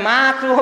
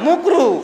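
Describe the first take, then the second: First: The first vowel is an open 'a' sound. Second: The first vowel is a rounded 'u' sound. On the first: This is the plain form of the word. "মাকরু বলে না" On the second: The word is twisted so its bad meaning is hidden.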